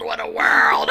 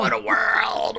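First: Low, rasping whispered wail; dramatic sick man. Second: Dramatic sick man. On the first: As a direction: groan it out in a low rasp. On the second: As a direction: wail it like a dying man. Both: Retold or imitated. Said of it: "Willie gets sick".

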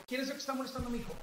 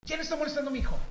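First: Raised pitch, quick, controlled question; firm, without shouting. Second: High, carrying call to the room; retold challenge, pitched well up and projected; projected demand. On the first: Retold or imitated. Father confronting the kids at the gym, firm without shouting. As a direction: demand it fast and high but don't yell. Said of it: "no grité". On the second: Father calling out whoever bullies his son, projected demand. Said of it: "soy gritador profesional".

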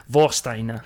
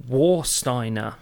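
First: Warsteiner with a German V sound, Vor-steiner; German pronunciation. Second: Warsteiner with an English W, slow; English pronunciation. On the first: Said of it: "Sorry, Vor". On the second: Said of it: "if you pronounce it correctly". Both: Shown as a demonstration.

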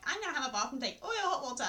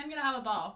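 First: Quick, laughing imitation of a sibling; mocking imitation. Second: Said in the usual way. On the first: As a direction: parrot them teasingly, faster. Mimics sibling's jab, half laughing.

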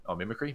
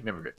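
First: "mimicry?" asked with a questioning rise; unsure pronunciation check. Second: "Mimicry." said with a settling fall, a touch softer; settled pronunciation. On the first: Checking a word's pronunciation with a friend, questioning rise. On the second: Correcting himself mid-chat, firm settling fall. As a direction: land on "Mimicry" as decided. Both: Real, not acted.

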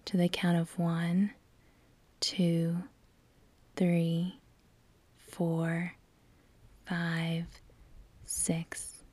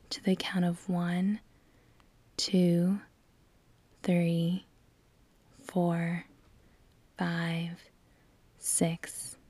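Both takes have the same delivery.

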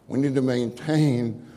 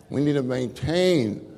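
The two takes are said the same way.

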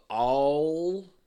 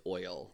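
First: "all" drawn out long and loud for oil; mocked Southern "all". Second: Said in the usual way. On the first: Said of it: "You say it funny". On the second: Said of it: "and the word is oil".

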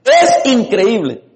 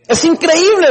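First: Es increíble drawn out slowly, word by word; weighty slow Es increíble; slow repeat. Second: Increíble thrown up high with a leap of pitch; emphatic exclamation. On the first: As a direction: let Es increíble sink in slowly. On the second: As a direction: hit increíble hard and high. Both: Shown as a demonstration.

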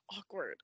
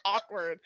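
First: Awkward said much softer, trailing off; softer trailing repeat. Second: Said in the usual way. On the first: Shown as a demonstration. Echoing awkward under her breath to the co-host. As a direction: let awkward fade to near nothing.

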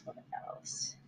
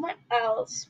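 First: Breathy whisper, thinking aloud; whispered to herself. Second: Said in the usual way. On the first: Real, not acted. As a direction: mutter it under your breath.

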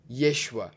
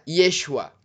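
First: Said in the usual way. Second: Put-on a louder Israeli-accented "Yeshua"; imitated Israeli accent. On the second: Showing viewers the Israeli name for Jesus. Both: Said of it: "parecido com o sotaque israelense".

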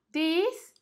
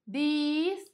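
First: Said in the usual way. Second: THIS stretched into "theeese"; emphasis on E. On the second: Shown as a demonstration. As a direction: lean on a long "ee" in THIS. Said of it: "dá uma ênfase aqui no E".

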